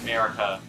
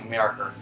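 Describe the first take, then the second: First: The word ends in a plain vowel. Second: The word ends with an added R sound. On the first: "names that end with A" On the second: "I kind of make it sound like"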